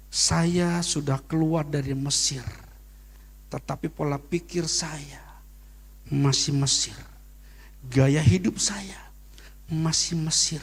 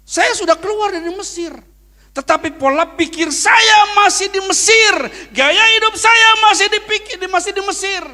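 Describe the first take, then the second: First: Slow, half-whispered reflection; hushed repeat. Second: High, loud preaching shout. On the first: Pastor repeating his message to the church, slow and hushed. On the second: Pastor shouting his lesson at the congregation, high and loud. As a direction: shout the message to the back row. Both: Acted.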